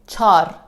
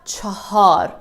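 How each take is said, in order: First: The word is shortened to one syllable. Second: The word is said in two full syllables. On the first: The speaker calls it right. "We say char" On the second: The speaker calls it wrong. "we don't say chahar. It is a bit difficult to say it"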